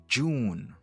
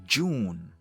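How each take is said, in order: No difference in how they are said.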